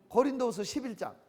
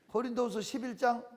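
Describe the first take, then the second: The two takes are said the same way.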